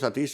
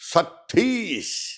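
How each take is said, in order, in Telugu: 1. పేరును ప్రత్యేక ఒత్తిడి లేకుండా సాధారణంగా పలుకుతారు. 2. పేరును ఆప్యాయంగా, కొంచెం ఒత్తి పలుకుతారు. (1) "అందరూ సతీష్, సతీష్ అంటారు" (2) "ఆ ఒత్తు పెట్టి"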